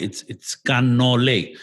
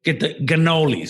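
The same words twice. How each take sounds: First: "cannoli" slow, with an open Italian "a"; proper Italian cannoli. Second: "cannolis" with a hard American G-like start, said a bit higher; Italian-American cannolis. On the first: Shown as a demonstration. Mocking the Sopranos version, speaker gives the correct slow "cannoli". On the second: Retold or imitated. Imitating Sopranos characters ordering cannolis, mock American pronunciation. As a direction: mimic the Americans' "Get the cannolis". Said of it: "They go".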